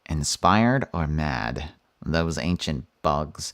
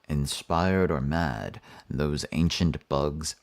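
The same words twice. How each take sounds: First: It is read in an imitation of Lemm's voice. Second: It is read in the speaker's normal voice.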